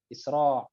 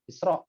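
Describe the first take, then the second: First: The word ends with a pharyngeal ain sound. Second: The word ends with a glottal stop. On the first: It means hurrying quickly. The speaker calls it wrong. "terlalu fasih jadi isra' pakai ain jadinya" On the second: It names the night journey from Mecca to Jerusalem. The speaker calls it right. "Harusnya isra'un gitu atau isra'u pakai hamzah"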